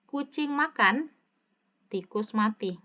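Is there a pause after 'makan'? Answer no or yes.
yes. It is said with a pause after makan. The cat is eating while a mouse dies elsewhere. "Dengarkan teksnya"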